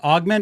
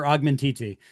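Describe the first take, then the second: First: The name ends after the syllable 'ment'. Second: The name ends with an added 'titi' sound. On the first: "the product is pronounced augment" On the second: "I posit it should be called augmentiti"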